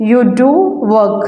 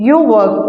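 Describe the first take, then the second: First: "do" stressed, then a short pause before "work". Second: Said in the usual way. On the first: Shown as a demonstration. Teacher giving the emphatic form, stress on "do". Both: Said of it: "emphatic affirmative sentence".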